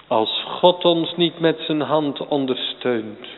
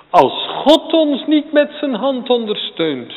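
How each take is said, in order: First: Said in the usual way. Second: "ons" hit high and loud, line much higher; fervent emphatic repeat stressing "ons". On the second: Shown as a demonstration. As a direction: press hard on "ons" in the repeat. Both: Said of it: "repeated with emphasis".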